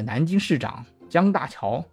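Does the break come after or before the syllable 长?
after. The break falls between 南京市长 and 江大桥. It names a Nanjing mayor called Jiang Daqiao. The speaker calls it wrong. "如果你把它读错了"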